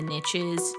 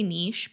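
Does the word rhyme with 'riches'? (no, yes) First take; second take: yes; no. First: It is said to rhyme with riches. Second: It is said so it does not rhyme.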